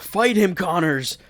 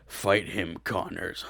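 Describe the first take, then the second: First: It is said in the speaker's normal voice. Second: It is said in a put-on lizard voice.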